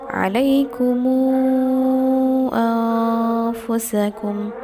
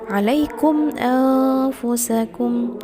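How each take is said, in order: First: The m links with a lengthened u vowel. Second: The final m is closed with no vowel. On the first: "Bisilah ma'at tawassut empat harokat" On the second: "Kalau dengan sukun berarti bacanya"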